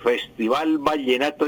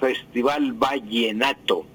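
First: The ll is pronounced as a distinct ll sound. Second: The ll is pronounced like a y sound. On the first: The speaker calls it right. "Lo mismo que" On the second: The speaker calls it wrong.

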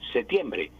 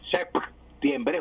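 First: No consonant is heard before the t. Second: A p sound is heard before the t. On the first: "septiembre sin la P" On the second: "si yo pronuncio correctamente la P, septiembre, juntando los labios"

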